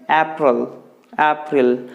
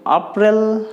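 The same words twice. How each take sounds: First: April with a front first vowel, "AP-rul"; correct pronunciation. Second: April with an open "ah", "ap-RIL"; wrong pronunciation. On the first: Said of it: "You need to say". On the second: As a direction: mispronounce April as "ah-pril". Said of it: "you don't need to say like that". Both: Shown as a demonstration.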